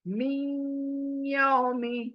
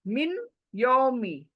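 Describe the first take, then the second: First: The n merges into the y with nasal sound. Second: The n is said clearly before the y. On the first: "देखिए नून नाक में" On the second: "मिन एक है, यौमी दूसरा है।"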